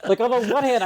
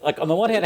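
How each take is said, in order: First: Higher, cracking up through the phrase; laughing. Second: Said in the usual way. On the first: Real, not acted. Catching herself saying it again, laughing. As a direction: caught in her own habit, laughing. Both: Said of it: "I'm just gonna go with it".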